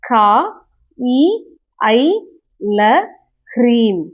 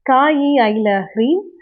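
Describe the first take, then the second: First: It is recited slowly, syllable by syllable. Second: It is recited quickly, syllables run together. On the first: "உச்சரிச்சு காட்டுறேன். தெளிவா" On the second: "இத நான் ஃபாஸ்ட்டா எப்படி படிப்பேன்னா"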